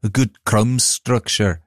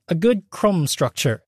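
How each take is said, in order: First: Slow mock Scottish accent; attempted Scottish accent. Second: Put-on terrible British accent. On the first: Shown as a demonstration. Co-host redoing the baking judge's line, rough Scottish accent. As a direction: have a slow go at Scottish, sliding towards Liverpudlian. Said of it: "I'm gonna do it in a Scottish accent". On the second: Host quoting a British baking show judge, terrible British accent. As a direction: attempt a British baker's accent, badly. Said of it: "That was an attempt at a British accent".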